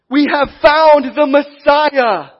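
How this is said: It is said with excitement.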